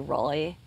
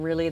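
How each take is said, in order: First: It is said in a Valley Girl accent. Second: It is said in a plain, everyday accent. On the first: "they'd say Rolly" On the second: "instead of saying really"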